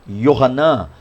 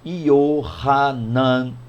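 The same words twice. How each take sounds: First: The name is said at a normal pace. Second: The name is said slowly and deliberately.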